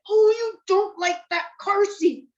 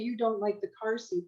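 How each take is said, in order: First: It is said with strong, matching emotion. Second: It is said in a flat, plain tone.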